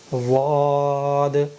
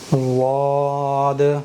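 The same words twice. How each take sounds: No difference in how they are said.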